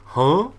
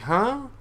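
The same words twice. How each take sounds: First: It is said at a lower pitch. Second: It is said at a higher pitch.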